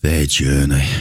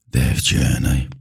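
First: Scornful quote. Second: Lower, slow, dripping with scorn; sneering mock quote. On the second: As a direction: drawl it out mockingly, lower. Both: Shown as a demonstration. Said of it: "I hate this word".

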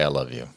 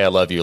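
First: "I love you" low and much softer, grudging; forced mutter. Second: Said in the usual way. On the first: Retold or imitated. A kid forced to say "I love you", softly. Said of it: "like forcing them to say". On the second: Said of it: "nothing makes a kid wanna say".

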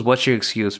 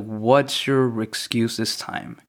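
First: Said in the usual way. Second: Slow, deliberate title read, every word spaced; title announced slowly. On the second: Shown as a demonstration. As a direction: announce the show's name, drawn out. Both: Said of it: "that's why I kinda wanted to name it".

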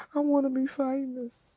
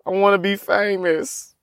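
First: High soft whimpering longing; high whimpered wish; wistful whine. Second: Said in the usual way. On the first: Real, not acted. Repeated whimpering.

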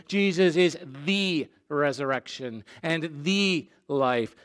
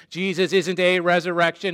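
First: Each "the" stressed as "thee", with pauses. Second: "a" stressed as "ay". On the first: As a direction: lean firmly on "the", slowing into "life". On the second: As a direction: lean on "a" to reject it. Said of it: "He is not vague". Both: Shown as a demonstration.

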